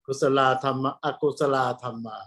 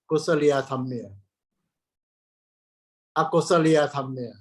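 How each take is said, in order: First: "Kusala Dhamma" said the Thai way, ku-sa-la with no extra syllable; Thai Pali pronunciation. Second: "Kusaliya Dhamma" with an added -ya sound, ku-sa-li-ya; Cambodian Pali pronunciation. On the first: Monk showing how Thai monks say "Kusala Dhamma". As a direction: say "Akusala Dhamma" with plain Thai-style ku-sa-la. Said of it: "we pronounce". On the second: Monk imitating how Cambodian monks say "Kusaliya Dhamma". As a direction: say "Akusaliya Dhamma" inserting the li-ya syllable like Cambodian monks. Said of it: "they pronounce Kusaliya Dhamma".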